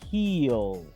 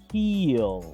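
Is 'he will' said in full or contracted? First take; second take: contracted; contracted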